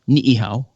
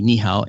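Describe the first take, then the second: First: Each vowel of the double vowel is sounded separately. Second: The double vowel is merged into one sound. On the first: The speaker calls it right. "you always pronounce each vowel" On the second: The speaker calls it wrong. "would not be nihao"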